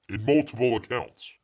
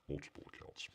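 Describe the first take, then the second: First: Said in the usual way. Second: Breathy whispered repeat of multiple accounts; whispered aside. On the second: Real, not acted. Host whispering a sly aside to chat.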